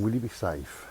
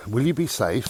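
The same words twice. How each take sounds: First: Said in the usual way. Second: Louder, higher worried mum's question. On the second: Retold or imitated. Son recalling mum asking about his safety, mildly worried. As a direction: voice mum's concern a touch louder. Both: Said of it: "That was her first thing".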